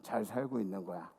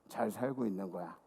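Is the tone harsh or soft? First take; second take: soft; soft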